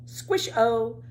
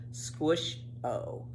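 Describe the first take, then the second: First: Said in the usual way. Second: Soft unvoiced whisper, falling away; whispered echo. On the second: Reading a children's chapter, echoing the refrain in a whisper. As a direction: breathe the second squish-o like a fading echo.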